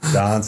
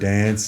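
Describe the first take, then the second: First: The vowel sounds South African. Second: The vowel sounds Australian. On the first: This is how the speaker still says it. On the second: This is how teammates expect it said.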